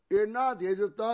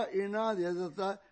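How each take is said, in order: First: Exclaimed loud. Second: Slower echo. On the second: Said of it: "ਇੰਨਾ ਦੇ ਦ�ੱਤਾ". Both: Acted.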